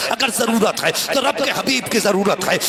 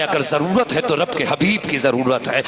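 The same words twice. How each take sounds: First: اگر ضرورت ہے تو رب کے حبیب کی ضرورت ہے said higher with stress on تو; preacher's emphatic repeat. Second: Said in the usual way. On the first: Shown as a demonstration. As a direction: lift the repeat and press تو. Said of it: "repeated line, raised for emphasis". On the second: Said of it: "repeated line, second take raised".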